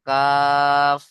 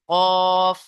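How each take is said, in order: First: কাফ drawn out, slightly forward of the tongue root; more forward kaf. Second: কফ held long, from the tongue root; back-of-tongue qaf. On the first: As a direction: sound কাফ a little forward on the palate, held long. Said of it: "জিভের গোড়া থেকে একটু আগে সরে এসে". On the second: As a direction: sound কফ far back against the palate, drawn out. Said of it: "জিভের গোড়া তার বরাবর উপরের তালুর সাথে লেগে". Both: Shown as a demonstration.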